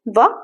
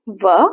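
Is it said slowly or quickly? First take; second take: quickly; slowly. First: It is said quickly. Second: It is said slowly.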